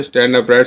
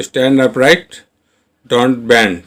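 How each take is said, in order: First: Said in the usual way. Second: Very slow model. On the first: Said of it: "same words said at normal pace". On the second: Shown as a demonstration. Teacher modelling stand upright for learners, very slow. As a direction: stretch stand upright out word by word. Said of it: "teacher models English sentence".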